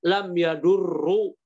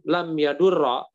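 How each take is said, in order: First: The verb ends with a short u vowel. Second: The verb ends with a short a vowel. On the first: The speaker calls it wrong. "kalau dibaca dhammah" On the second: The speaker calls it right. "kok difathahkan"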